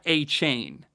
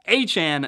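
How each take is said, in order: First: The last syllable rhymes with 'chain'. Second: The last syllable rhymes with 'Chan'. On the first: The speaker calls it wrong. "not [name], ... not like uh, ... Chain Gang" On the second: The speaker calls it right.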